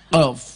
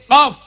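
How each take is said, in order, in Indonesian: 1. Bunyi pertama itu q tenggorokan yang dalam. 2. Bunyi pertama itu k depan yang biasa. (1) "ya malah bisa" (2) "sama sekali gak bisa ngomong qaf"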